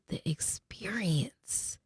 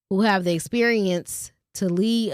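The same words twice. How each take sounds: First: Breathy whispered aside, slow. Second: Said in the usual way. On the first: Real, not acted. Vlogger slipping a whispered correction to viewers, in a whisper.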